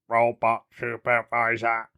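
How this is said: It is said in a robot voice.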